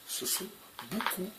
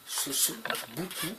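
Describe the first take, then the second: No difference in how they are said.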